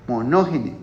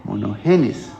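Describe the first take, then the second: First: "monógene" stressed on the second syllable, mo-NÓ-ge-ne; wrong stress. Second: "monogenes" stressed on the last syllable, mo-no-ge-NÉS; corrected stress. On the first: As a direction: say "monógene" with the weight on NÓ, final e unstressed. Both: Shown as a demonstration. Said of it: "porque tiene tilde en la última E".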